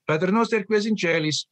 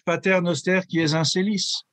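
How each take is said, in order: First: The Latin is pronounced with Italian sounds. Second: The Latin is pronounced with French sounds. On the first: This is the Roman way everyone later adopted. "Roman. ... just like the Italians" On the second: This is the older French custom. "Or in French"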